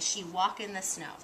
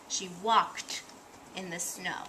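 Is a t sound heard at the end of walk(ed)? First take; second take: no; yes. First: The verb ends without any t sound. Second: The verb ends with a clear t sound. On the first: The speaker calls it wrong. "they might not read the E D" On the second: The speaker calls it right. "when we see the E D, we say t"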